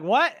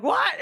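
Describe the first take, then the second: First: Loud, high acted question; mock shock through laughter; startled disbelief. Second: Loud, very high acted question; hammed-up alarm, pitch leaping; alarmed disbelief. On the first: Recruit Yolk hears the order to shoot, startled. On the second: Sidekick learns he may be shot, alarmed. Sidekick hears the shooting order.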